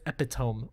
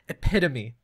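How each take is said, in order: First: The word is said as it is spelled. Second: The word is said the standard way. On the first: The speaker calls it wrong. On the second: The speaker calls it right.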